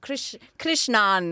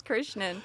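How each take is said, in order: First: Slow "Krishnan" with long "ah" ending; mock foreignized pronunciation. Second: Quick, soft "Krishnan" with unstressed ending; own name pronunciation. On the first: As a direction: overdo "Krishnan" as Krish-NAHN, drawn out. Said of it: "everyone's like". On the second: Shown as a demonstration. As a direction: say "Krishnan" plainly, short last vowel. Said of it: "it's pronounced Krishnan".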